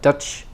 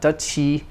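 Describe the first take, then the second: First: The word ends cleanly on the ch sound. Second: An extra vowel is added after the final ch. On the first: The speaker calls it right. "but Dutch" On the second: The speaker calls it wrong. "So there's no u or e added. not Dutchy"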